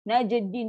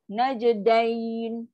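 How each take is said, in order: First: The last syllable has a plain i vowel. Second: The last syllable has a soft ai glide. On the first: The speaker calls it wrong. "Dia akan bunyi najdin" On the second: The speaker calls it right. "Dain kan lembut"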